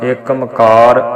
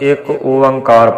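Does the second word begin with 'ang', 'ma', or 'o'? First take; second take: ma; o. First: The second word begins with a 'ma' sound. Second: The second word begins with an 'o' sound. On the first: The speaker calls it wrong. "ਨਹੀਂ ਪੜ੍ਹਨਾ" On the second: The speaker calls it right. "ਅਸੀਂ ਇੱਕ ਓੰਕਾਰ ਪੜ੍ਹਨਾ"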